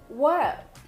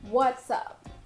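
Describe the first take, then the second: First: It is said with a D sound before up. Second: It is said with an S sound before up.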